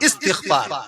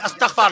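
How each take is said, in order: First: The syllable after 'st' has an 'i' vowel. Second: The syllable after 'st' has an 'a' vowel. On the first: The speaker calls it right. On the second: The speaker calls it wrong.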